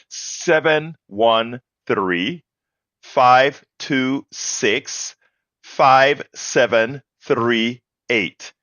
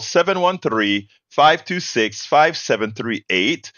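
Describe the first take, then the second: First: The number is read at a slow pace. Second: The number is read at a quick pace.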